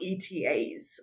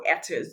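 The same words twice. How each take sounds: First: "E T As" said letter by letter; spelled-out initials. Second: "etas" run together as one word. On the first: Webinar host naming the travel permit, initials spelled out. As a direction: say "E T As" as three separate letter names. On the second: Webinar host giving the other pronunciation, acronym as a word. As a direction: pronounce "etas" as a word, not as letters. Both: Shown as a demonstration. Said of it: "how you pronounce it".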